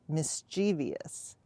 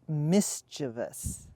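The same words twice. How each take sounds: First: The word has a rural Nebraska pronunciation. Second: The word has the common, widespread pronunciation.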